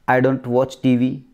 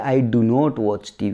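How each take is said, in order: First: The negative is contracted to 'don't'. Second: The negative is said as separate 'do not'. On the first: The speaker calls it right. "जैसे डोंट" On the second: The speaker calls it wrong. "अपन बोलते हैं"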